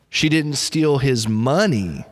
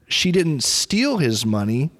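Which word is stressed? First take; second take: money; steal. First: The stress falls on the word 'money'. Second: The stress falls on the word 'steal'. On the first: She stole something of his other than money. "So maybe she stole something else, but it wasn't his money" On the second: She got his money some other way, not by stealing. "She didn't steal it. Maybe she just borrowed his money"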